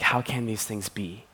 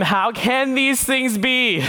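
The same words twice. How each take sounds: First: Softer, pleading question. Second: High, slow, bewildered question; baffled Nicodemus. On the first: Nicodemus desperately pleading with Jesus, soft. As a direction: beg to understand, quietly. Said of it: "he's pleading when he's like". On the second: Nicodemus to Jesus, high slow baffled question. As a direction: Nicodemus scratching his head, utterly lost. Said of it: "Nicodemus says to him". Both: Acted.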